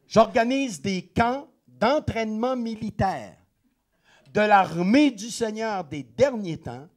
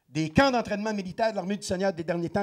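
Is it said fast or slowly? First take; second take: slowly; fast. First: It is said slowly. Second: It is said fast.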